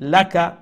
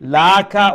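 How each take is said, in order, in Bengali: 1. শেষ স্বরধ্বনিটি হ্রস্ব রাখা হয়। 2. শেষ স্বরধ্বনিটি টেনে দীর্ঘ করে বলা হয়। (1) "লাকা ওমলা খান" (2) "লাকা হইতো না"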